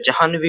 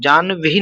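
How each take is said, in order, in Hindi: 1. इसमें ह की ध्वनि बोली जाती है। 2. इसमें ह की ध्वनि नहीं बोली जाती। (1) "जाह्नवी होता है" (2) "जानवी नहीं होता है"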